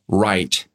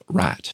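First: The vowel glides from one sound to another. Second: The vowel is a single steady sound. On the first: This is how people say it in the lowland South. "But in the lowland South, ... you'll hear right" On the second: This is how people say it in the inland South. "instead of rat"

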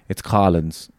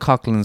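First: No k sound comes before the l. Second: A hard k sound comes before the l. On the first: This is how the locals insist it is said. "they very vehemently say back to you" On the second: This is how outsiders call the place. "I call it Cocklins all the time"

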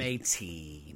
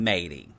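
First: The middle t is a strong, aspirated sound. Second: The middle t is a soft, flapped sound.

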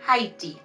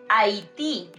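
First: The first letter H is pronounced. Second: The first letter H is silent. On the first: The speaker calls it wrong. "not Haiti" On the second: The speaker calls it right. "we say Haití"

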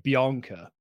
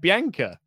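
First: The name is said in a posh-sounding way. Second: The name is said in a plain everyday way. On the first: "a posh person would say Bianca" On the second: "That's how it's said"

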